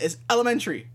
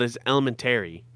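First: "elementary" said as ele-men-tree, higher; "tree" ending. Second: "elementary" said as ele-men-tary; extra syllable. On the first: Telling him how everyone says it, "elementary" ending in "tree". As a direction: end "elementary" on a quick "tree". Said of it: "putting tree at the end". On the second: Disputing the "tree" version, "elementary" with a full "tary". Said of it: "saying that extra syllable". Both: Shown as a demonstration.

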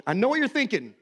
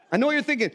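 First: Said in the usual way. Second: Higher, teasing repeat of I know what you're thinking; knowing, raised repeat. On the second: Shown as a demonstration. Preacher teasing the congregation, higher and knowing. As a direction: say it again, higher and more knowing.

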